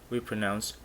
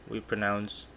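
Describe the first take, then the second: Both takes have the same delivery.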